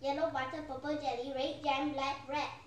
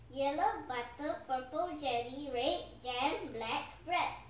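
First: It is said even more quickly. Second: It is said at a slow, normal pace.

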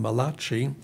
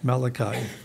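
First: The name is pronounced like an Italian word. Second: The name is pronounced the English way. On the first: The speaker calls it wrong. "Some people think he was an Italian prophet. They call him Malachi. It's not Malachi" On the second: The speaker calls it right. "and in English, Malachi"

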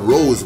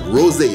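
First: The final e is silent, one syllable only. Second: The final e is pronounced as a second syllable. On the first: The speaker calls it wrong. "You can't call it rose wine" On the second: The speaker calls it right. "You see that little accent on the E? You gotta pronounce that"

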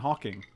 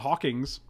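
First: The name ends without an S sound. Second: The name ends with an added S sound. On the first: The speaker calls it right. "his name is Stephen Hawking" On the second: The speaker calls it wrong. "He's not Hawkings"

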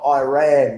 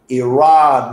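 First: The word sounds like the phrase 'I ran'. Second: The first syllable does not sound like 'I'. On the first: The speaker calls it wrong. "not Iran. That's a fucking song from a flock of seagulls" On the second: The speaker calls it right.

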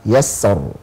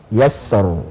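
No difference in how they are said.

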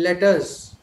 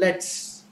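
First: The words are said as two full, separate words. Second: The words are squeezed together into one syllable. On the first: "in written English, we use the full forms" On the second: "when we say the contracted form"

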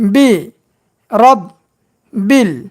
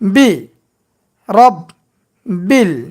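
Both takes have the same delivery.

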